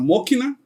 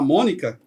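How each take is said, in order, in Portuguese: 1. O som k vem antes do som n. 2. O som n vem antes do som k. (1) "a gente falava Mokina" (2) "ao invés de falar Mônica"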